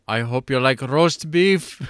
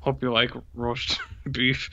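First: Slow, smug, hammed-up villain line; imitating the villain. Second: Slow, quieter line broken by a laugh; smiling villain imitation. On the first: Quoting the remake's villain to his cohost, slow and smug. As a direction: savour each word like a grinning movie villain. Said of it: "there is the line where he goes". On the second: Echoing the villain line to his cohost, smiling and laughing. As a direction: grin through it like the villain, laughing mid-line. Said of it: "he says it with a smile".

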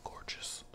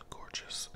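No difference in how they are said.

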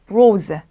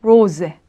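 First: 로제 begun with an English-style L; wrong L version. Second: 로제 begun with R, not L; German R. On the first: Teacher warns students off the L sound, wrong L version. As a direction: say 로제 with L instead of R. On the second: Teacher models the word for students, German R. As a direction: say 로제 with a clear R onset. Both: Shown as a demonstration. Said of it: "그 R이 로제는 아니라는 거죠".

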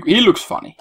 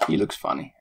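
First: Higher amused remark. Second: Whispered aside. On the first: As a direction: point it out with a grin. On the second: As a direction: repeat it as a private whisper. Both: Shown as a demonstration.

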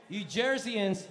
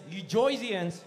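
First: Said in the usual way. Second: "Joysians" with an oy vowel, Jersey style; Jersey accent. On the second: Shown as a demonstration. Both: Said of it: "you Joysians".

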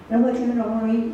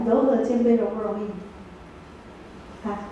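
First: Said in the usual way. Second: Very slow, each word stretched; unhurried teacher's prompt; slow drawn-out question. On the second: Shown as a demonstration. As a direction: draw the question out slowly for the class. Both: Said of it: "哦，来，".

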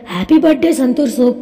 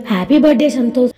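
First: "సంతోష్ soap" said like the soap name Santoor; birthday wish with "సంతోష్ soap" sounding like "Santoor soap"; name slip. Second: Said in the usual way. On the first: A narrator's reading. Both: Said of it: "sorry, sorry".

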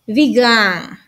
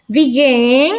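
First: "began" said as "bee-GAHN", falling; "began" as "bee-gahn", tone dropping; past-tense began. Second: "Began" said as "bee-GUEN", rising; "Began" as "bee-guen", emphatic and rising; present-tense begin. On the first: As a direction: open a in last syllable of "began". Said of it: "Y el que sigue es". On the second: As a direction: lift the end of "Began", e in last syllable. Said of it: "Aquí vamos con el siguiente verbo". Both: Shown as a demonstration.

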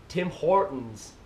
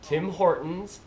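First: Slow Canadian "Tim Hortons", tune falling; Canadian accent, draw out "Tim Hortons" and drop the end; practising Canadian accent. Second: Slow Canadian TIM HORTONS, tune rising; Canadian accent, draw out "Tim Hortons" as a question; practising Canadian accent. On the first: Vlogger practising "Tim Hortons", slow Canadian accent, falling. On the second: Vlogger practising "Tim Hortons", slow Canadian accent, rising. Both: Shown as a demonstration. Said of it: "I'll practice".

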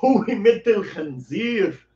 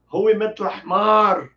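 First: "Hui metel khanzir" said slowly and clearly, syllable by syllable; slow Arabic demo. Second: "Hui metel ahmar" a bit slowed and louder; carefully paced "Hui metel ahmar"; slow Arabic demo. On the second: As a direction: model "Hui metel ahmar" clearly for the class. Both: Shown as a demonstration. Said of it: "aqui está o cardápio pra você escolher".

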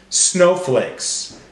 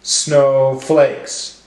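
First: Said in the usual way. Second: Snow... flakes, in two beats; broken into syllables. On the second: Shown as a demonstration. Teacher helping class count syllables, one beat each. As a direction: separate the two syllables evenly. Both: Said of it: "break up our words into syllables".

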